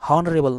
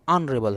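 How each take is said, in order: First: The word begins with an h sound. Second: The word begins with a vowel sound. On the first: The speaker calls it wrong. "हॉनरेबल नहीं" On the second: The speaker calls it right. "ऑनरेबल है"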